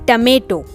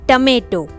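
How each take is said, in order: Both takes have the same delivery.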